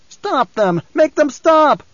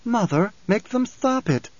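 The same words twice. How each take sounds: First: High, desperate cry building louder; frantic other voice. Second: High, slow, sweet plea; pleading young girl. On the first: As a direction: beg in rising panic. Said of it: "And another voice". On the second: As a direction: beg mother in a youthful lilt. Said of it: "She turned pleading eyes to Jessica". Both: A narrator's reading.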